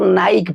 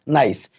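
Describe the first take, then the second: First: The word ends with a k sound. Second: The word ends with an s sound. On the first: The speaker calls it wrong. "ना कि इसको नाइक पढ़ेंगे" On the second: The speaker calls it right. "इसको क्या पढ़ेंगे? नाइस।"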